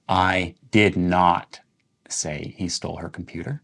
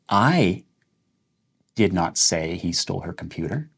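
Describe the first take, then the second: First: The words "did not" carry the stress. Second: The word "I" carries the stress. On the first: The claim that it was said is false. "Now let's emphasize did not" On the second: Someone else said it. "you're saying that that's not something I said. That's something somebody else said"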